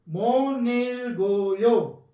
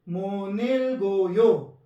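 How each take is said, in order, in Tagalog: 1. Pinag-uugnay ang mga pantig at nagbabago ang tunog. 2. Pinag-uugnay ang mga pantig at nagbabago ang tunog.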